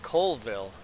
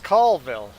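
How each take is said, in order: First: The first syllable sounds like the word coal. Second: The first syllable does not sound like coal. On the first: The speaker calls it wrong. "I accidentally said Colville" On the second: The speaker calls it right. "it's Colville"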